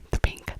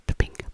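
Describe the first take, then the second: No difference in how they are said.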